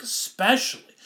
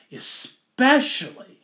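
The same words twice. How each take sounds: First: Said in the usual way. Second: "especially" drawn out slow, higher and louder; emphatic stress. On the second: Shown as a demonstration. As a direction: stretch "especially" and lean into it.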